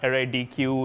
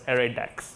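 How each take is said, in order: First: The ending is said as two letters, D Q. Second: The ending is one syllable, like deck. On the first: The speaker calls it wrong. "It's not array D Q" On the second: The speaker calls it right. "it's array dex. Um, it's like a deck of cards"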